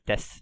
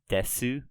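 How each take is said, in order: First: The final u vowel trails off, unpronounced. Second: The final u vowel is fully pronounced. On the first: "just des ... let it kind of trail off without fully pronouncing it" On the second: "when you read this kind of literally, it's desu"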